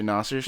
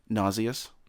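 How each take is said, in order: First: It is said with the everyday American pronunciation. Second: It is said with the new British-style pronunciation.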